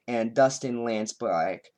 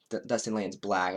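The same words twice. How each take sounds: First: Slow southern drawl on the name; accidental southern accent. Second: Said in the usual way. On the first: Real, not acted. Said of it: "I suddenly had a southern accent". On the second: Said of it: "I don't know why I suddenly".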